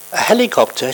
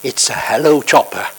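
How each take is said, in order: First: Said in the usual way. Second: Put-on "hello chopper" said as a small child's version of helicopter; lightly voiced little girl saying "hello chopper"; a child lisping "hello chopper" to a worried caller; child's mispronunciation. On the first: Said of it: "And he said". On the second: A narrator's reading. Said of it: "the little child said".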